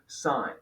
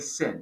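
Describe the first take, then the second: First: The vowel is long, as in pine. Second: The vowel is short, as in pin. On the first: The speaker calls it right. "We still say sine" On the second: The speaker calls it wrong. "we don't say sin"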